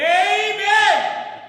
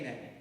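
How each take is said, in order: First: It is said with high intensity. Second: It is said with low intensity.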